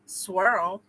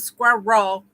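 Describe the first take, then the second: First: Squirrel run together as "swirl"; slow, stretched "swirl" in one syllable. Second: "squirrel" split in two, like "squir-roll"; "squirrel" with a clear second syllable. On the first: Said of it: "you could say swirl". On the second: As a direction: sound out both halves of "squirrel". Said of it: "Instead of squirrel". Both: Shown as a demonstration.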